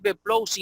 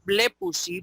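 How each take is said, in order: First: The stress is not on the first syllable. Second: The stress is on the first syllable. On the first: The speaker calls it wrong. "No es" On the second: The speaker calls it right. "es blepusi porque el acento está sobre la epsilon"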